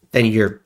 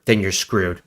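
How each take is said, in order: First: Words breaking into a real laugh. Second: Said in the usual way. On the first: Real, not acted. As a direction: chuckle through then you're. Laughs while restarting sentence.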